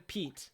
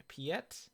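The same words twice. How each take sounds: First: Said in the usual way. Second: Piet as two syllables, pee-ET; alternative pronunciation. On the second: Shown as a demonstration. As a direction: try out Piet as pee-et, questioning. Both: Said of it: "Or Piet?".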